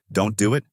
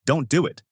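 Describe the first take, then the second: First: Puzzled echo with rising question; mildly confused. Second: Understated cry to stop someone; mild mock shout. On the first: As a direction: repeat it back, not understanding. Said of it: "Makalo gets confused". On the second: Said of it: "You don't need to shout like that". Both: A narrator's reading.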